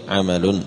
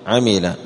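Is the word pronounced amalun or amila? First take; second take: amalun; amila. First: The middle vowel is a and the word ends in -un. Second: The middle vowel is i and the word ends in -a. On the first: It is an act. "بفتح الميم ورفع اللام وتنوينه" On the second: He did an act. "بكسر الميم وفتح اللام"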